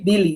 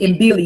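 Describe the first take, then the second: First: The word starts with a b sound. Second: The word starts with an m sound. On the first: The speaker calls it right. "It's just Billy" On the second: The speaker calls it wrong. "I told him that it was Mbili"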